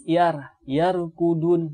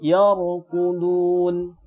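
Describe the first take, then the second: First: Yarqudun with a light, thin ra; wrong thin ra. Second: Yarqudun slowly with a heavy, full ra; correct thick ra. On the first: Teacher showing students the wrong way: thin ra in yarqudun. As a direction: show the mistake: yar said thin. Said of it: "Jangan dibaca tipis". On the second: Teacher correcting the example for students: slow, thick ra. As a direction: give the right version, thick ra. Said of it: "harus dibaca dengan tebal". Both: Shown as a demonstration.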